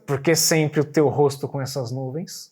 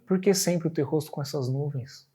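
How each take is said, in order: First: It sounds reproachful, with thinly hidden anger. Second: It sounds warm and tender, with gentle affection. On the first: The speaker wants to scold the listener. "essa mesma frase disfarçando uma braveza" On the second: The speaker wants to win the listener's affection. "uma versão mais afetuosa"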